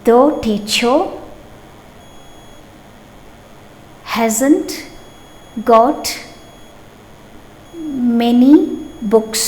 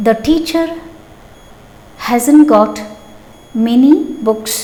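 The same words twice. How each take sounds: First: Word by word, long pauses between the words; slow classroom dictation, one word at a time. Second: Said in the usual way. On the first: Shown as a demonstration. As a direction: spell the sentence out slowly for the class.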